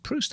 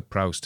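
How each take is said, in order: First: "Proust" said one way, as the first option; first pronunciation. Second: "Proust" with the vowel changed, as the second option; alternative pronunciation. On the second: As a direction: offer "Proust" as the other pronunciation. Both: Shown as a demonstration. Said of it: "Is it Proust or Proust?".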